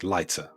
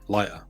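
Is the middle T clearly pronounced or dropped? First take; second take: pronounced; dropped. First: The middle T is clearly pronounced. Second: The middle T is dropped.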